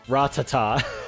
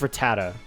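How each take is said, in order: First: The name is said in a fancy, posh way. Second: The name is said in a plain, ordinary way. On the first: "That's the fancy way of saying it" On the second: "I think it's Rattata"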